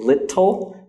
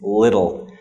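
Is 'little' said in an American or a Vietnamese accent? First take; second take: Vietnamese; American. First: It is said with a Vietnamese accent. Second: It is said with an American accent. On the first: The speaker calls it wrong. "maybe Vietnamese people will say little" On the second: The speaker calls it right. "the real pronunciation is little. Uh, or at least Americans pronounce it as little"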